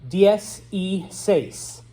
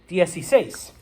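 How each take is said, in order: First: Three separate words are said slowly. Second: The words run together into one word. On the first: The speaker calls it wrong. "nobody says it that slow" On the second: The speaker calls it right. "we smoosh it all together"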